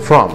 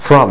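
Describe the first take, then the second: First: The vowel is weak and reduced. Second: The vowel is weak and reduced.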